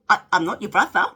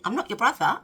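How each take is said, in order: First: Louder, miffed "I'm not your brother"; miffed retort. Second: Repeated with stress on "not"; plain repeat. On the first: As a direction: push back, a bit put out. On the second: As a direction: lean on "not" in "I'm not your brother". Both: Retold or imitated. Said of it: "he said to me".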